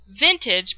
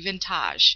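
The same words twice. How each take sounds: First: It is said like the ordinary word vintage. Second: It is said following its unusual spelling. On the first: This is how the brand name is actually said. The speaker calls it right. "Now it's pronounced vintage" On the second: This is how the spelling suggests it is said. The speaker calls it wrong. "the way it's spelled, it should be vintage"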